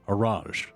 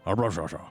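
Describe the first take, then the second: First: The name ends on a consonant sound. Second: The name ends with an extra vowel sound. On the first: The speaker calls it right. "It's A R A J" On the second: The speaker calls it wrong. "I don't know why I have so much trouble trouble pronouncing this name"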